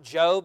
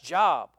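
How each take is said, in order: First: The vowel is long, rhyming with robe. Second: The vowel is short, rhyming with rob. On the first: This is the name of the biblical book. The speaker calls it right. "that's not Job" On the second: This is the ordinary word for work. The speaker calls it wrong. "that's Job"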